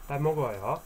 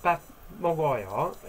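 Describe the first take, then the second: First: "Bat mogoyo" in a careful Korean accent; good Korean accent. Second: Said in the usual way. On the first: Shown as a demonstration. Teacher showing the polite form to learners, Korean accent. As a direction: try your best Korean accent. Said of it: "with my good Korean accent". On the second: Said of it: "if I say it in".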